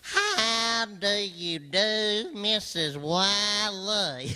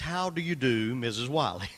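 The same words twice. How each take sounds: First: It is said nasally, twanging like Ernest T. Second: It is said in a plain voice.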